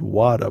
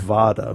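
First: "wada" starting with a W sound; pronounced with W. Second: "vada" starting with a clear V sound; pronounced with V. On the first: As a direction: say "wada" with a rounded W, not a V. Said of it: "it sounded like he said". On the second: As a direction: say "vada" with a V, not a W. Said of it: "V A D A". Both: Shown as a demonstration.

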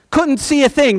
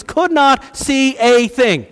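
First: Said in the usual way. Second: "Could not see a thing" slowly, each word stressed; emphatic word-by-word. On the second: Shown as a demonstration.

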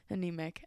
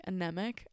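First: Anemic with a Kiwi "ah-NEE-mik" vowel; Kiwi accent. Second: Anemic with a short "eh" vowel, "a-NEM-ic"; plain. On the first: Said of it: "Am I using a Kiwi accent". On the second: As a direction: say Anemic with the eh sound. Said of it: "I was fully using a Kiwi accent". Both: Shown as a demonstration.

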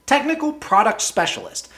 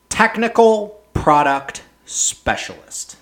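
First: Higher, mocking repeat of the title. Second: Slow, sneering read of a silly job title; scornfully spelled out, word by word; mocking title. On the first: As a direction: toss the title back in disbelief. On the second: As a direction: drag it out with contempt. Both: Real, not acted.

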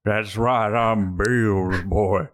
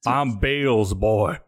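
First: Very slow, drawn-out drawl; changed put-on voice. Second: Put-on slow, drawn-out Southern accent. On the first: Customer repeating his bluff to the boatman, slow changed voice. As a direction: stretch it out in an altered voice. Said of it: "Why are you changing your voice?". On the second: Customer bluffing the boatman about his father, slow Southern accent. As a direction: claim it in a careful country accent. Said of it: "trouble being consistent with accents".

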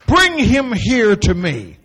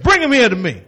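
First: Drawn-out and slow; a slow, gentle reading. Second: Said in the usual way. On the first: Shown as a demonstration. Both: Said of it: "He didn't say it like that".

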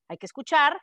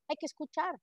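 First: Escuchar pushed out louder with firm emphasis; stress on escuchar. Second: Said in the usual way. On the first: Shown as a demonstration. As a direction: insist hay que escuchar. (recalca escuchar con más fuerza)

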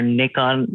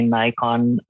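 First: Nikon said as NICK-on; alternative pronunciation. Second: Nikon said as NYE-kon; long-i pronunciation. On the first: Podcast guest offering the other way to pronounce it, Nikon as NICK-on. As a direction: say Nikon with a short i, not "eye". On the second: Podcast guest recalling his first camera, Nikon as NYE-kon. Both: Shown as a demonstration. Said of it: "depending on how you want to pronounce it".

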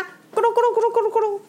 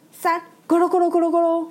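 First: Fast, much higher tumbling sound effect; rolling crash noise. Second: Fast, higher tumbling sound effect; rolling-back noise. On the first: Narrator voicing Bob's truck flipping, rolling noise. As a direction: make the truck roll over noisily. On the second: Narrator voicing Bob's truck righted, rolling noise. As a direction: make the truck roll back upright. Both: Acted.

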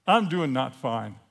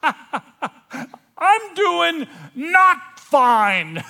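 First: Said in the usual way. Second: Very high, slow, full-volume shout; yelling out. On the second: Acted. Confessing to the whole room, yelling out. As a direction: scream it out word by word. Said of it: "I yell out".

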